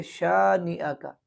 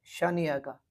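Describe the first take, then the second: First: शानिया with a clear crisp sh; correct reading. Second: शानिया का with a vague sh; wrong demo शानिया का; wrong reading. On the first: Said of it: "बल्कि". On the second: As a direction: slur the sh of शानिया. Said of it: "यूँ पढ़ना गलत है". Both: Shown as a demonstration.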